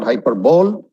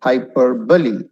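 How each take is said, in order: First: "hyperbole" as hyper-bowl, the wrong way. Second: "Hyperbole" as hy-PER-bo-lee; correct hyperbole. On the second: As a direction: model "Hyperbole" with stress on PER. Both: Shown as a demonstration. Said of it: "It's not hyperbole".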